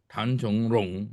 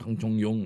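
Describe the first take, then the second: First: The last syllable begins with an R sound. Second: The last syllable begins with a Y sound. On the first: This is the character's standard reading. "它的字是 Rong" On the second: This is the habitual local way of saying it. "orang sudah biasa Tang Chong Yong"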